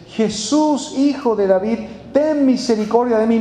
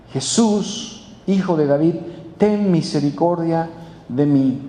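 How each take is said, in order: First: Mildly raised pleading call; retold cry for mercy. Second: Lower, measured plea; understated, earnest appeal in a lowered voice; restrained cry of faith. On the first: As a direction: call out to someone at a distance, without real shouting. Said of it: "empezó a gritar y a dar voces". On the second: Retold or imitated. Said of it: "empezó a clamar con fe".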